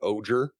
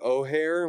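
First: The middle consonant is a g sound. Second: The middle consonant is an h sound. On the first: The speaker calls it wrong. "where I've just been calling it Oger" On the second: The speaker calls it right. "That's probably the right pronunciation"

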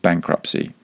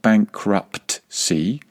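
First: No T sound is pronounced before the final syllable. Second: A T sound is pronounced before the final syllable. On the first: The speaker calls it right. "there's a silent T in there" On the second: The speaker calls it wrong. "It is not bankruptcy"

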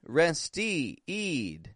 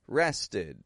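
First: The last syllable has a long E vowel. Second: The last syllable has a short I vowel. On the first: The speaker calls it wrong. "Nor did I say rested" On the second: The speaker calls it right. "But I gave it an I. I sound. The short I"

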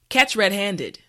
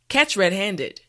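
No difference in how they are said.

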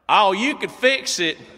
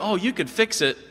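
First: It is said in a strong imitated local accent. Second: It is said without a strong put-on accent. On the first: The speaker calls it right. "Let me get the accent right" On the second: The speaker calls it wrong. "No, hold on"

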